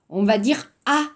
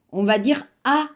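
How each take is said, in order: Both takes have the same delivery.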